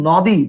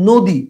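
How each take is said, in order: First: The first vowel is an open 'aw' sound. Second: The first vowel is a closed 'o' sound. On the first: The speaker calls it wrong. "উচ্চারণ কিন্তু নদী বলো না" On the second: The speaker calls it right. "উচ্চারণ বলো নদী। তাহলে নয়ের উচ্চারণ ও এর মতো করতেছো"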